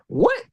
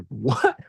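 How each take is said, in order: First: "What?" jumps very high in disbelief; a stunned, high-pitched "What?"; incredulous squeak. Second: Said in the usual way. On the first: Retold or imitated. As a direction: squeak "What?" as if you can't believe it. Client reacting to redo request.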